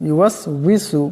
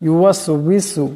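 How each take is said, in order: Both takes have the same delivery.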